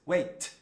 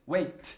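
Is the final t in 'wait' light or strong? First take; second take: light; light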